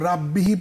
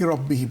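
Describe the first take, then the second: First: The r is light with a thin vowel. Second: The r is heavy with a full vowel. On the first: The speaker calls it wrong. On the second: The speaker calls it right.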